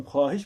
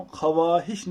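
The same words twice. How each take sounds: First: Said in the usual way. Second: ख्वाहिश said as "kha-waa-hish", with a clear W; sounded silent vav. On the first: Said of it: "हम ख्वाहिश पढ़ते हैं". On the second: Shown as a demonstration. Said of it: "हम ख्वाहिश नहीं पढ़ते". (ख्वाहिश میں واؤ پڑھ کر "خَ-وا-ہِش" بولیں)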